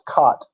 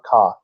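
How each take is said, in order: First: The word ends with a plain t sound. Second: The word ends with a th sound. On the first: The speaker calls it right. "But it's cot" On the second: The speaker calls it wrong. "somebody stuck an H sound in there, a T H sound"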